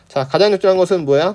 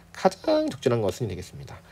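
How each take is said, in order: First: Said in the usual way. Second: 가장 stretched way out, then softer to the end. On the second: Shown as a demonstration. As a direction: draw out the first vowels of 가장 very long. Stretches key word in question.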